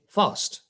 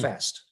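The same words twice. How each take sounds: First: It is said with a non-American accent. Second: It is said with an American accent. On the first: "in America, they don't say fast" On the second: "They say hmm. fast"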